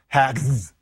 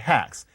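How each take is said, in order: First: The word ends with a z sound. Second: The word ends with an s sound. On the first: The speaker calls it wrong. "You wouldn't say for hacks, hacks" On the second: The speaker calls it right. "And so you say hacks"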